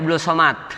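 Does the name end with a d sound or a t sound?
t sound. The name ends with a t sound. This is how Betawi people say it.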